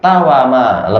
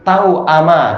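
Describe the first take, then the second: First: The word flows smoothly without a glottal catch. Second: A glottal catch breaks the word in the middle. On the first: "lebih ringan tawama" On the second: "Semula tahu ama"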